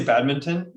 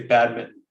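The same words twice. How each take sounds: First: BADMINTON with both N and T, bad-min-ton; full badminton. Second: BADMINTON with the T swallowed, "bad-mi'n"; American badminton. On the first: Co-host gives the Canadian way, T sounded. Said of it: "So I say badminton". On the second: Co-host shows how Americans say it, ending swallowed. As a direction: drop the T: bad-min. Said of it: "Americans say badminton". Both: Shown as a demonstration.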